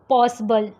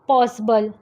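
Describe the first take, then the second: First: The middle vowel is a weak, reduced vowel. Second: The same.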